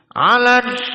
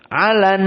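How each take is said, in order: First: The nose is pinched, so the n sounds blocked. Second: The n hums through the nose for two beats. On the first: "coba kita tutup hidung" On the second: "ini yang dua harokat"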